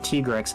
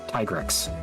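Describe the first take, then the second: First: The name does not sound like 'tiger rex'. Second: The name sounds like 'tiger rex' run together. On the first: This is how the game's voice acting says it. The speaker calls it wrong. "when they pronounce it with the actual voice acting, they say Tigrex. That sounds stupid" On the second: The name comes from tiger and rex. The speaker calls it right. "It's Tigrex. Tiger Rex"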